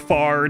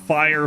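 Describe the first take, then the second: First: The vowel is a flat 'ah', like 'far'. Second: The vowel glides, ending with an r sound.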